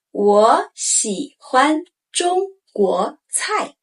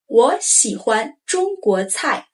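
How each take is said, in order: First: 我喜欢中国菜 slowly; slow model sentence. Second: Said in the usual way. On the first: Shown as a demonstration. Teacher modeling the sentence, slow. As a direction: spell out each tone. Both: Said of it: "We use it often".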